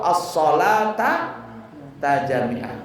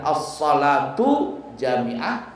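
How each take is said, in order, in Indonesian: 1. Kata salat diakhiri vokal a. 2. Kata salat diakhiri vokal u. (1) "atau as-salata tajami'ah. Boleh" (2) "Boleh kalimatnya as-salatu jami'ah"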